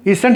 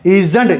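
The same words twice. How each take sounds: First: "isn't" said with a hissed, voiceless s. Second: "isn't" said with a voiced z for the s. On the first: Teacher shows learners the reading to avoid, S sound. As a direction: keep the s in "isn't" sharp, no z buzz. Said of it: "isn't नहीं पढ़ने". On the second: Teacher models the correct reading for learners, Z sound. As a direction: make the s in "isn't" buzz as z. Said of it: "जेड का sound आएगा". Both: Shown as a demonstration.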